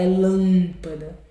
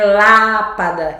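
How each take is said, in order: First: Lâmpada with a nasalized LÂM; nasal A. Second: Lápada with a wide, un-nasal LÁ; open oral A. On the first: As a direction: send the first vowel of lâmpada through the nose. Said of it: "é lâmpada". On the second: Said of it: "Não é lápada". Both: Shown as a demonstration.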